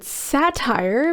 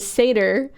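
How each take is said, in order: First: It sounds like the word satire. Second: It does not sound like the word satire. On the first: The speaker calls it wrong. "always pronounced it satire" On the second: The speaker calls it right. "how to say satyr"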